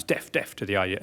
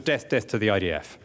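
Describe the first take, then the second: First: "Deaf, deaf" chant, softer, with F replacing the TH of death; dialect TH as F. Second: Said in the usual way. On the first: Retold or imitated. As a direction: end each "Deaf" on F, as in dialect. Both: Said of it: "or in their dialect".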